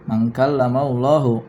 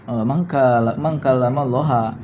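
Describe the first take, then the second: First: The last word ends with an 'u' vowel. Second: The last word ends with an 'a' vowel. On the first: God is the one who spoke. "kata Allah dibaca rafa" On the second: God is the one spoken to. "ada pula yang menasabkannya"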